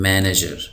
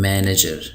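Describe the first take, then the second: No difference in how they are said.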